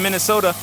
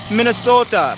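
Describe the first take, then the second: First: Said in the usual way. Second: Put-on Minnesota accent, pitched up; hammy go at a Minnesota accent; bad Minnesota accent. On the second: Shown as a demonstration. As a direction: attempt a Minnesota accent, badly. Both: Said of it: "That was a horrible accent".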